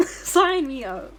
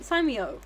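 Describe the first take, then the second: First: Slower, louder, laughing through it; laughing emphatic repeat. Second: Said in the usual way. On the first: Shown as a demonstration. Streamer repeats joke about dating Kiryu, laughing and emphatic. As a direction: lean in and drag it out with a laugh.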